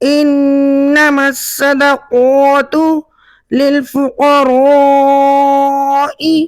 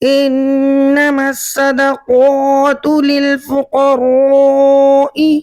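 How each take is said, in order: First: The vowel in fuqara is drawn out long. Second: The vowel in fuqara is kept short. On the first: The speaker calls it right. "इस लफ्ज पर मद करके यानी खींच कर पढ़ा" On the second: The speaker calls it wrong. "पढ़ने वाले ने यहाँ पर मद नहीं की"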